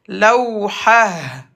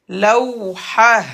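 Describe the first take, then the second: First: The word ends with an 'h' sound. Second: The word ends with an 'h' sound.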